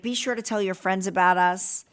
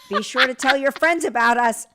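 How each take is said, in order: First: It is said in a plain, casual tone. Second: It is said with exaggerated, excited enthusiasm.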